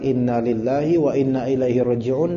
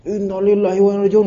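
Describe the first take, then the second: First: It is said quietly and calmly. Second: It is said in an irritated, resentful tone. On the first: The loss is accepted peacefully. The speaker calls it right. "dengan tenang, bukan dengan gegap gempita emosi" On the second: The loss is not accepted. The speaker calls it wrong. "Kenapa bisa gini? Enggak terima gua"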